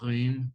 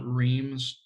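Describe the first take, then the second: First: The R is made in the throat. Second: The R is an English-style R. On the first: The speaker calls it right. "in the typical French when it's in the back of the throat" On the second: The speaker calls it wrong. "it's not Reims"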